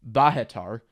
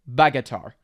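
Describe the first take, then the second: First: The name is given its Ukrainian pronunciation. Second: The name is given its Russian pronunciation. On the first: "In Ukrainian, it's Bahatar" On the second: "I just said the Russian pronunciation"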